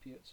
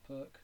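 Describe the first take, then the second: First: The name ends in a ts sound. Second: The name ends in a plain k sound.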